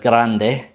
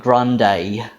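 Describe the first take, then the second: First: It is said with a Spanish accent. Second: It is said with an English accent.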